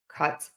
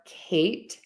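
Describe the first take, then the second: First: The vowel is a short flat uh sound. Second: The vowel is long and glides with mouth movement. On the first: The speaker calls it wrong. "I would hear ... cut" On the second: The speaker calls it right. "instead of saying ... Kate"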